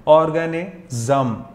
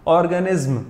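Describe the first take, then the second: First: Slow ऑर्गेनिज्म ending in zem; ऑर्गेनिज्म drawn out as organezem. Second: ऑर्गेनिज्म with a clipped izm, no vowel before m; ऑर्गेनिज्म ending tight in izm; wrong izm ending. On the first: Teacher showing students the right ending, slow zem. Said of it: "जम, हाँ जी". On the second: Teacher showing students the wrong way, clipped izm ending. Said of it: "इज्म नहीं पढ़ते". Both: Shown as a demonstration.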